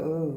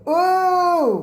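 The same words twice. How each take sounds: First: It is said flatly, without emotion. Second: It is said with strong disgusted emotion. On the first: The speaker calls it wrong. "you wouldn't go" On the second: The speaker calls it right. "You go"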